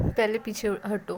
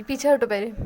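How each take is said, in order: First: Said in the usual way. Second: पीछे हटो snapped out loud; loud annoyed order to move back. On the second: Acted. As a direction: bark पीछे हटो at her. Annoyed girl pushing friend off.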